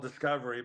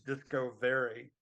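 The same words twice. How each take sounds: First: Said in the usual way. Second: Discovery said slowly as DISCO VERY; slow "disco ... very" split in Discovery; split into two words. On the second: Shown as a demonstration. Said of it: "separate that into two words".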